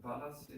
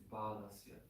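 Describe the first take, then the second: First: The first vowel is short. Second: The first vowel is held twice as long. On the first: The speaker calls it wrong. "So it's not balasya" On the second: The speaker calls it right. "This ah is twice as long as the one after L"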